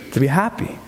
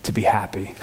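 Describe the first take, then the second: First: Laughing. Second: Said in the usual way. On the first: Real, not acted. Laughing repeat of scripture. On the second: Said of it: "you can hear the emphasis in that".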